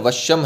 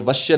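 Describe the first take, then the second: First: The word ends with a final m sound. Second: The word ends on a vowel, without m. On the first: The speaker calls it right. "वश्यम है" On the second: The speaker calls it wrong. "ये वश्य नहीं है"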